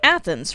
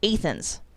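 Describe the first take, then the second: First: The first vowel is a short A sound. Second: The first vowel is a long A sound. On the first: It is the name of the Greek city. The speaker calls it right. "As in Greece?" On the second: It is the local name of the Illinois town. The speaker calls it wrong. "inexplicably use a long A sound"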